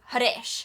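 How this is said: The name is said in an Indian accent. "with an Indian accent, you'd call him"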